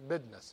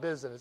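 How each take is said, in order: First: The word is said with a d sound. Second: The word is said without a d sound. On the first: The speaker calls it right. "Notice there's a D in business" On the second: The speaker calls it wrong. "It's not business"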